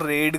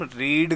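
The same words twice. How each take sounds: First: रीड said as "red", with a short "e"; रीड turned into past-tense "red"; second-form "red". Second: रीड with a long "ee"; रीड as the base verb, vowel "ee"; first-form "reed". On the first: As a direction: say रीड to rhyme with bed. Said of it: "रीड का इस्तेमाल नहीं करना है". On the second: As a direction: say रीड to rhyme with need. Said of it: "verb की first form रीड". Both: Shown as a demonstration.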